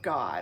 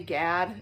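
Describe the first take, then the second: First: The vowel is an open 'ah' sound. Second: The vowel is the 'a' of 'cat'. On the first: The speaker calls it right. "A's are always ah" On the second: The speaker calls it wrong. "some people like to ref- say Gad, but you wouldn't pronounce it that way"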